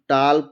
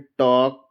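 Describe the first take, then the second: First: The L sound is pronounced in the word. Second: The L sound is silent in the word. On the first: The speaker calls it wrong. "नहीं पढ़ेंगे" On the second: The speaker calls it right. "इसका pronunciation है"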